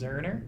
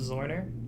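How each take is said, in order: First: The first vowel sounds like 'er'. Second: The first vowel sounds like 'or'. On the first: The speaker calls it right. "It was actually pronounced Zerner. You don't say the O" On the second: The speaker calls it wrong. "everyone calls him Zorner"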